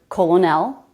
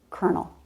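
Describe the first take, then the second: First: It is said as spelled, with an L sound. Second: It is said like kernel, with an R sound. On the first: The speaker calls it wrong. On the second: The speaker calls it right.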